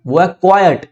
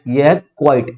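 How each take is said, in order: First: क्वाइट as "KWAI-yut", two syllables; two-syllable pronunciation. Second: क्वाइट as "kwite", a single syllable; one-syllable pronunciation. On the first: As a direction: open the end of क्वाइट into "yut". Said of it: "इसकी जो pronunciation है". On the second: Teacher contrasts this word with that one, one-syllable quite. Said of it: "अब ये वाला जो है ना". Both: Shown as a demonstration.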